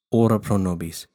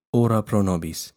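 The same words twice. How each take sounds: The two takes are said the same way.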